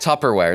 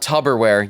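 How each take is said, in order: First: The middle consonant is a clear p sound. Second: The middle consonant is a soft b-like sound. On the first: The speaker calls it right. "It's Tupper with P's" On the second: The speaker calls it wrong. "It's not Tupperware, you barbarians"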